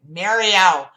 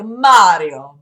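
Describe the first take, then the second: First: The name is said in a New Jersey accent. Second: The name is said in a plain standard accent. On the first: This is how the speaker actually says it. "I say it like a Jersey bitch" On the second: This is how it is supposed to be said. "It should be like Mario, but like I don't say it like that"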